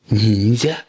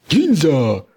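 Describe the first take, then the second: First: «Ніндзя» as a question, rising at the end; curious question. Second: High shout on «Ніндзя», falling at the end; shouted summons. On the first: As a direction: ask «Ніндзя» with curiosity, no shout. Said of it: "поцікавився Блискавка". (запитальне, зацікавлене «Ніндзя») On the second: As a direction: call «Ніндзя» out as a command. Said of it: "крикнув Кабуто". (владний вигук «Ніндзя») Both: Acted.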